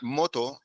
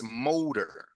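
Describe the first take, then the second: First: The word ends without an r sound. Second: The word ends with an r sound. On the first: The speaker calls it wrong. "It's not moto" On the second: The speaker calls it right. "It's motor"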